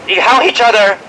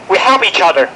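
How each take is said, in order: Both takes have the same delivery.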